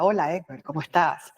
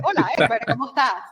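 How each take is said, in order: First: Lower, put-on announcer greeting; radio announcer voice. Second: Mock affected greeting, pitched higher; put-on greeting voice. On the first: To warn against faking a voice, a lower mock announcer greeting. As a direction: mimic a staged radio host saying hello. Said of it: "como una locutora". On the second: To show listeners how they shouldn't talk, a put-on higher greeting. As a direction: fake a stiff, unnatural hello. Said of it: "Tú no dices". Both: Shown as a demonstration.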